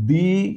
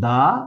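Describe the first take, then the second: First: The word ends in a long 'ee' vowel. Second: The word ends in a short 'uh' vowel. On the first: The next word starts with a vowel. "তখন তার pronunciation হবে দি" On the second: The next word starts with a consonant. "এখানে উচ্চারণ হবে কিন্তু দা"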